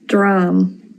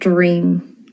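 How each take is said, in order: First: It sounds like 'dram', the Irish reading. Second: It sounds like English 'dream'. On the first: The speaker calls it right. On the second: The speaker calls it wrong.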